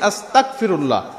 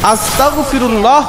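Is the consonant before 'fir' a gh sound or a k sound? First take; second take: k sound; gh sound. First: The consonant before 'fir' is a k. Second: The consonant before 'fir' is a throaty gh. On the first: It changes the meaning entirely. The speaker calls it wrong. "গাইনের জায়গায় আমরা কাফকে বসিয়ে দিচ্ছি" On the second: It means asking God for forgiveness. The speaker calls it right. "আস্তাগফিরুল্লাহ হবে"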